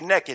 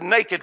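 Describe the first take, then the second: First: It is said with a Texas pronunciation. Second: It is said with a standard pronunciation.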